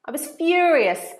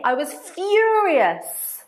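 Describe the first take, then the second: First: Said in the usual way. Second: "furious" drawn out slow, higher and louder; I was "furious", said big and slow; stress on furious. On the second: Shown as a demonstration. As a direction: lean hard on "furious", stretching it. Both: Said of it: "Much better to say".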